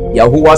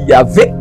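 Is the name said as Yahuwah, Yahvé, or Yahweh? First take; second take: Yahuwah; Yahvé. First: The name has three syllables ending in wah. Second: The name has two syllables with a v sound. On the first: "c'est ça" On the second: "Il y a d'autres qui vont dire Yahvé"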